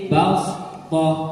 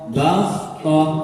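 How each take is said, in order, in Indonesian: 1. Bunyi s-nya berat dan bertekanan. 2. Bunyi s-nya berat dan bertekanan.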